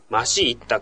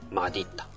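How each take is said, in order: First: The second consonant is pronounced as s. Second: The second consonant is pronounced as d. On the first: The speaker calls it wrong. "マシッタと言っちゃいけないの" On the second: The speaker calls it right. "正しくはマディッタなんだよね"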